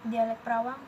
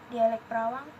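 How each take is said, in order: Both takes have the same delivery.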